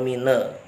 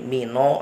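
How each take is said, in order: First: The word ends in an e vowel. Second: The word ends in an o vowel. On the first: "atau mine" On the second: "jangan menjadi mino"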